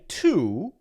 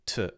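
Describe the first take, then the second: First: The vowel is a long oo sound. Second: The vowel is a short schwa sound. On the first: "we could say that's the double O, long O, ooh sound" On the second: "we often make it what we could call... the schwa sound"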